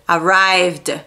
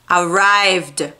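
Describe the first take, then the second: The two takes are said the same way.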